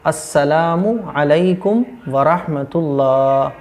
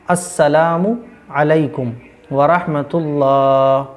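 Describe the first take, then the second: Both takes have the same delivery.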